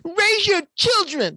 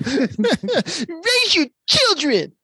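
First: High, slow caricature voice; exaggerated cartoon intonation. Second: Very slow, high, laughing caricature; exaggerated cartoon intonation. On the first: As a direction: stretch it out like a cartoon preacher. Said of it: "why are you talking like that?". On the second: Shown as a demonstration. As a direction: drag it out high, laughing through it. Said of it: "taking all the bass out of your voice".

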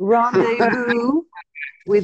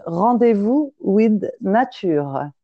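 First: "Rendezvous" said slowly the American way, as "ron-day-voo" with an English r; Americanized pronunciation. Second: "Rendezvous with Nature" said slowly in French, with a French uvular r and "natyʁ"; French pronunciation. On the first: French woman saying her brand name the way Americans would. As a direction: drag out "Rendezvous with" in a flat American accent. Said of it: "I have to pronounce it like you guys". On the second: Asked by the caller, she says her brand name in real French. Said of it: "Say it in French". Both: Shown as a demonstration.

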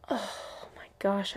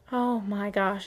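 First: Slow, soft, shaky oh my gosh; shaky sigh. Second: Said in the usual way. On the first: Real, not acted. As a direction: sigh it out, fighting tears. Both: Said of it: "I'm trying not to cry".

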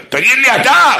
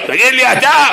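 First: High, loud yell at him; loud turned-around yell; yelled back. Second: High, loud dybbuk-like shout; loud mock dybbuk yell; demonic yell. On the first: Retold or imitated. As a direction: shout the question back at him. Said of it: "צעקתי עליו". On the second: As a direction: blast him with a possessed voice. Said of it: "יש לי קול של קולורבי עם חולות".

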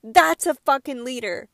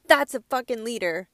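First: Louder, swearing with real passion; emotional outburst. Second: Said in the usual way. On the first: Real, not acted. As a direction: declare it with fire. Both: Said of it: "I get really emotional about stuff like this".

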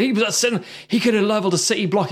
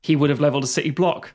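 First: Higher, hurried mock alarm; quick, raised-pitch acted claim; excited film quote. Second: Quick rebuttal leaning on "would"; corrective stress on would. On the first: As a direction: rush it like an urgent revelation. Acted film line, then corrected. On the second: Acted. Corrects could have to would have.

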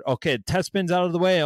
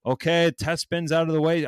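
First: A bit higher, mock host patter; mock raffle host. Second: Lightly voiced raffle host announcing; a hint of a cheery streamer host; mock raffle host. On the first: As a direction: lightly imitate a streamer running a raffle. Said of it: "some they didn't even do a test spin". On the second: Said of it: "all the raffles that I've ever partaked in were".

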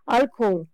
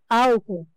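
First: Álcool said the Spanish way with a clear final l; álcool in a Spanish accent; Spanish pronunciation. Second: Álcool said the Portuguese way, final l almost dropped; álcool with a Portuguese vowel ending; Portuguese pronunciation. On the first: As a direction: say álcool like a Spanish speaker, crisp l at the end. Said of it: "Em espanhol". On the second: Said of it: "Em português". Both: Shown as a demonstration.

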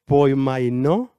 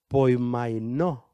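First: Poimainó said louder and slow, as POY-mai-NÓ with a rising end; confident, louder Poimainó with a lifted end; slow, emphatic Poimainó ending on a rise; Greek word repeated. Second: Testing poimainó slowly, unsure of it; tentative poimainó, slow and careful; first try at the Greek word. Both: Shown as a demonstration. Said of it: "No sé si lo pronuncio bien".

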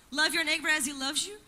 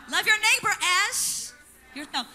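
First: Misquote it as a puzzled question, rising; "Love your neighbor as he loves you?" said as a doubtful question with a rise on "as"; wrong version, questioned. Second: Corrected quote, "your" pushed louder, then "yourself" dropping; "Love your neighbor as yourself" set right with weight on "your" and a falling "yourself"; corrected, firmly. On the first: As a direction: read the wrong line back as if checking it. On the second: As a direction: give the correct words, settling it. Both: Shown as a demonstration.

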